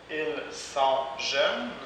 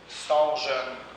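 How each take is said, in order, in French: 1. Le pronom 'ils' est bien prononcé. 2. Le pronom 'ils' est omis.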